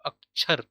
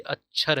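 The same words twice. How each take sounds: First: अक्षर with a clear k before the chh; tatsam pronunciation. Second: अक्षर softened to "ach-chhar", without the k; tadbhav pronunciation. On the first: Teacher showing students the written Sanskrit form, carefully pronounced. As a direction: say अक्षर split as "ak-chhar". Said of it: "अक्षर ऐसा लिखा हुआ". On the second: Teacher contrasting the everyday derived form, k dropped. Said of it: "तद्भव है, लेकिन अक्षर क्या है". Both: Shown as a demonstration.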